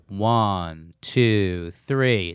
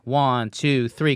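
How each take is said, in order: First: The count is said slowly. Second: The count is said fast.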